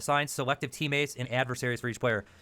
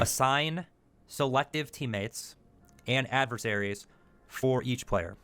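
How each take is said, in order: First: The phrase is read at a normal pace. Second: The phrase is read very slowly.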